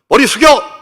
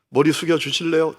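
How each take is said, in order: First: It is a blunt, loud command. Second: It is a soft, polite request.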